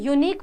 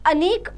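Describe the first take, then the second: First: The word starts with a y sound. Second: The word starts with a plain vowel sound. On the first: The speaker calls it right. "य का आ रहा है" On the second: The speaker calls it wrong. "वो pronunciation अ का नहीं आ रहा"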